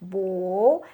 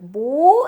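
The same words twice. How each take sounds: First: The word is said on a lower tone. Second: The word is said on a higher tone. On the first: It means boyfriend. "boyfriend is pronounced as bo" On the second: It means father. "with higher tone, it's a bo"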